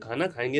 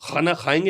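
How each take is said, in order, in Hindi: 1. यह महाप्राण 'क' की आवाज़ से शुरू होता है। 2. यह गले की खरखरी आवाज़ से शुरू होता है। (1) "भैया खाना खाएँगे ना यार" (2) "गैर ज़रूरी नुक्ते आप लगा रहे हो"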